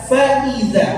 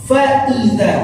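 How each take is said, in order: The two takes are said the same way.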